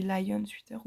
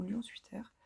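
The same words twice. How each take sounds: First: "lion" said the English way, lie-on; "lion sweater" with English "lion"; English pronunciation. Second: "lion" said the French way, nasal lyon; "lion sweater" with French nasal "lion"; French pronunciation. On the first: ("lion" à l'anglaise, laïeune) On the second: ("lion" à la française, nasalisé) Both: Shown as a demonstration. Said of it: "je sais pas si on dit".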